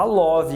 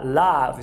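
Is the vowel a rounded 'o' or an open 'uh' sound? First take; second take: rounded 'o'; open 'uh'. First: The vowel is a rounded 'o' sound. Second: The vowel is an open 'uh' sound. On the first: The speaker calls it wrong. "Cuidado para não falar love" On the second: The speaker calls it right. "Aqui é o carrot. Ah, ah, love"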